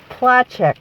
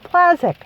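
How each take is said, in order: First: The name is pronounced the Polish way. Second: The name is pronounced the American way. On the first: This is how it is said in Poland. "it's pronounced Placzek, apparently, in Poland" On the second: This is how the family always said it. "But we always said Placzek"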